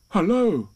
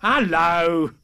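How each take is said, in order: First: Lightly voiced friendly bear's greeting, higher and louder; Pooh. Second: Loud, high storybook animal hello; boisterous animal calling hello; strange animal. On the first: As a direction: call out hello a bit higher, as a storybook bear. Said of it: "said Pooh". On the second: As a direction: echo the greeting back louder, as an unknown creature. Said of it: "said the strange animal". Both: A narrator's reading.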